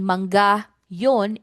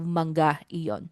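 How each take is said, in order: First: The word is shortened to yon, without i. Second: The full word iyon is said, with i. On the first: It is casual everyday speech. "in casual speech" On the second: It is the full standard form. "instead of"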